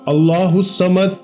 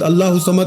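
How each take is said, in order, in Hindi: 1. हर शब्द अलग-अलग और सावधानी से कहा जाता है। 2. शब्द जल्दी-जल्दी एक साथ जोड़कर कहे जाते हैं। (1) "एक एक लफ्ज अलग अलग करके समझाया है, इसी तरह पढ़ेंगे" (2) "बहुत सारे लोग भला कैसे पढ़ते हैं ... खुदारा ऐसे नहीं पढ़ना"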